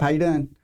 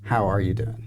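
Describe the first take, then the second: First: It is asked in a quick, casual way. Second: It is asked in a slow, sincere way.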